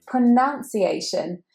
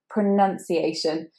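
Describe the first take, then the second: First: The second syllable has an ow vowel sound. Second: The second syllable has an uh vowel sound. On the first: The speaker calls it wrong. "Many people actually say this pronunciation" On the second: The speaker calls it right. "instead of an ow sound, we have a pronunciation"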